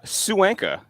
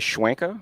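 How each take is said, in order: First: It starts with a plain 's' sound: Sue-anka. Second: It starts with an added 'shw' sound: Shwanka. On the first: This is the real pronunciation. The speaker calls it right. "just like it's spelled" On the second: This is how other people often say it. The speaker calls it wrong. "people add W all the time"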